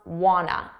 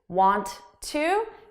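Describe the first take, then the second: First: The words blend into one reduced word. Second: Both words are said fully and separately. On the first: "becomes wanna as a reduction" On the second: "instead of want to"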